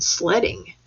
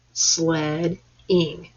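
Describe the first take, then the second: First: Said in the usual way. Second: "Sledding" split slowly into sled, ing; syllable by syllable. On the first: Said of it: "Count out how many parts". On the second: Shown as a demonstration. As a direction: say "Sledding" as two parts with a gap. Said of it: "Two parts".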